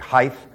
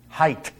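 First: The word ends with a TH sound. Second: The word ends with a T sound. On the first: The speaker calls it wrong. "They say height, and there is no such word in the English language" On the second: The speaker calls it right. "It's H-T, not T-H"

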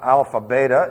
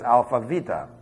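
First: The second word begins with a B sound. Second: The second word begins with a V sound. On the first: The speaker calls it wrong. "It's not Alpha Beta" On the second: The speaker calls it right. "it's Alpha Vita"

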